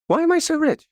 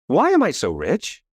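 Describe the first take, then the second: First: Higher, bright ringing second take; much higher, delighted re-asking; excited repeat. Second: Said in the usual way. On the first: Shown as a demonstration. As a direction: ask it again like a thrilling discovery. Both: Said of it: "And then I said".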